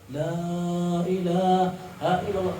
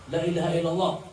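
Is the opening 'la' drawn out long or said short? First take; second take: long; short. First: The opening vowel is drawn out long. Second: The opening vowel is kept short and quick. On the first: The speaker dwells on the meaning of the words. "dipanjangkan matnya tuh" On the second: The whole phrase is completed without delay. "afdolnya itu pendek"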